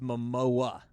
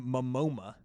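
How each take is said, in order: First: The name ends in 'o-a' with no extra 'm'. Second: The name is said with an extra 'm' before the end. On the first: The speaker calls it right. "It's Momoa" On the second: The speaker calls it wrong. "or Momoma"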